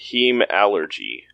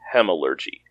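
First: The ending sounds like the word allergy. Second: The ending does not sound like allergy. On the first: This is how one host has been saying it. "You have been saying hemallergy" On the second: This is how the audiobook says it. "the audiobook pronounces it as hemallergy"

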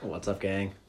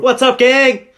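First: It is said with little excitement. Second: It is said with more excitement.

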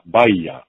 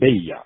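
First: The name begins with a 'ba' syllable. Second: The name begins with a 'be' syllable. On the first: The speaker calls it right. "which is a much more closer pronunciation" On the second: The speaker calls it wrong. "than Be-I-Ya"

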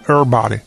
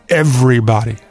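First: The v is dropped, sounding like errbody. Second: The v sound is clearly pronounced. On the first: The speaker calls it wrong. "they say everybody, like E-R-R-B-O-D-Y" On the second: The speaker calls it right. "It's not asking too much to throw in that V"

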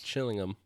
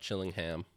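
First: The h sound is left out. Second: The h sound is pronounced. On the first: The speaker calls it right. "You don't say the H in England" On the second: The speaker calls it wrong.

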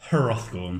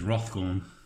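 First: The name starts with an audible H sound. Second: The name starts without an H sound. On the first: The speaker calls it wrong. "Hrothgorn seems a bit" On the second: The speaker calls it right. "the H is silent"

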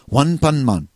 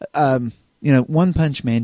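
First: The name is said with Japanese-style pronunciation. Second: The name is said with English pronunciation.

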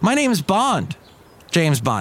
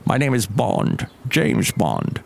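First: The line is said with long pauses. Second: The line is said without long pauses.

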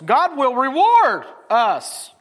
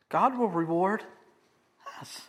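First: The stress is on "reward". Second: The stress is on "us".

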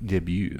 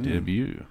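First: It is said with a stronger French accent. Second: It is said with a plain English accent.

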